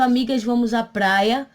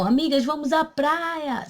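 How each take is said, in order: First: It is said as a plain statement. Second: It is said as an exclamation.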